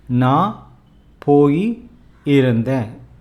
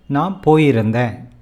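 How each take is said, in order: First: It is said slowly with clear emphasis. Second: It is said quickly and casually. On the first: The speaker wants to stress it. "This is how you say slowly and stressed" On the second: It is the ordinary everyday way. "But in a normal conversation"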